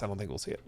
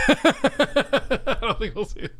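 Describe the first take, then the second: First: Soft, resigned mutter; softly resigned; quiet. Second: Higher and slowed, hammed-up despair; mock-dramatic regret; mock lament. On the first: Real, not acted. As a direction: let it fall away quietly. Resigned after a sigh. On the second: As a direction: stretch it out like a tragic sigh. Repeats line dramatically after laughing.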